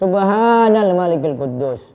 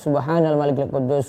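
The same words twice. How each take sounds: First: It is said loudly. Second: It is said softly.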